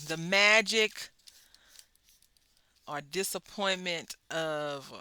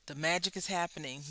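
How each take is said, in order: First: Slow, louder, leaning on "The magic"; dramatic emphasis. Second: Said in the usual way. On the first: Acted. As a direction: draw out "The magic" big and grand. Repeats phrase, second drawn out.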